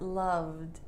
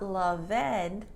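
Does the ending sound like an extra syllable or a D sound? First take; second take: D sound; extra syllable. First: The ending is a short D sound. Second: The ending is an extra 'ed' syllable. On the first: The speaker calls it right. "but loved" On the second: The speaker calls it wrong. "love is not loved"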